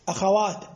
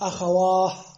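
First: The word ends with a stopped t sound. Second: The word ends with a soft h sound. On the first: This is the common, standard pausal form. The speaker calls it right. "قف عليها بالتاء الساكنة" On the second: This is a rare, non-standard pausal form. The speaker calls it wrong. "وبعضهم يقف بالهاء"

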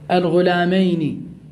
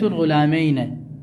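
First: The final n is followed by an 'i' vowel. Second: The final n is followed by an 'a' vowel. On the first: "مكسورة" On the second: "قل من يفتحها"

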